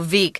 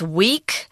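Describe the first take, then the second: First: It begins with a V sound. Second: It begins with a W sound. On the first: The speaker calls it right. "the Germans pronounce that W a V" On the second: The speaker calls it wrong. "It looks like it's weak"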